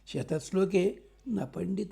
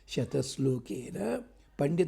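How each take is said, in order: First: There is a break between shatashloke and na. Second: Shatashlokena is said as one unbroken word.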